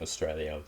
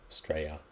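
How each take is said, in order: First: The word is said in the standard way. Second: The word is said the casual Australian way. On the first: "instead of saying Australia" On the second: "we just say Australia"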